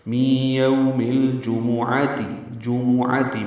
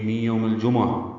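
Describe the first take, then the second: First: "می یوم الجمعاتی" chanted slowly with a clear pesh on meem; correct pronunciation. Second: "می یوم الجمعہ" with the pesh on meem dropped; wrong pronunciation. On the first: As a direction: give the meem its short u vowel. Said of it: "میم کی پیش معروف طریقے سے پڑھی جائے گی". (میم کی پیش کے ساتھ صحیح تلفظ) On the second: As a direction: say jumma the Urdu way, dropping the vowel. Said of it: "یہ غلط ہے". (میم کی پیش حذف کر کے، غلط تلفظ) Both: Shown as a demonstration.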